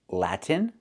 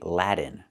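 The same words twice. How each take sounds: First: The T is clearly released before the N. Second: The T sounds like a quick D. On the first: The speaker calls it right. "with a clear T" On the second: The speaker calls it wrong. "We cannot say Latin"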